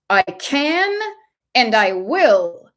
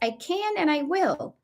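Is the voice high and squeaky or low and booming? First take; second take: low booming; high squeaky. First: It is said in a low, booming voice. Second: It is said in a high, squeaky voice. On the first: The speaker sounds powerful. "it's a low, booming voice" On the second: The speaker sounds weak and timid. "in a high, squeaky, mousy voice"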